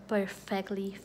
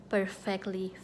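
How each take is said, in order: Both takes have the same delivery.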